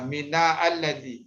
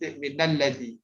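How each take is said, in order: First: The words are said apart, with a separate vowel. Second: The words run together, skipping the initial vowel. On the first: The speaker calls it wrong. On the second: The speaker calls it right.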